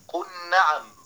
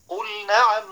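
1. تُدغم اللام في الصوت الساكن الذي بعدها. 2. تُنطق اللام بوضوح قبل الصوت الساكن التالي. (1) "ولا أن تقول قل نعم" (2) "بل لابد من بيان اللام"

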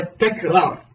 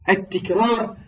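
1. الحركة الأولى هي 'a' (takrar). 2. الحركة الأولى هي 'i' (tikrar). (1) "تكرار بفعل بفتح التاء" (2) "لا تقول التكرار بكسر التاء"

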